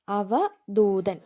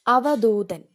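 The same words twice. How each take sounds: First: അവധൂതൻ stretched out very slowly, syllable by syllable; slow careful repeat. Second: അവധൂതൻ called out firmly, falling at the end; announced word. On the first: Teacher repeating the word so students can write it, very slowly. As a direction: spell out അവധൂതൻ slowly so they catch the ദ. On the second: Teacher calling out the exam word to students, firmly. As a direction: announce അവധൂതൻ clearly like a heading. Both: Shown as a demonstration. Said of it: "ആ ദാ ഏതാന്ന് നോക്കണം".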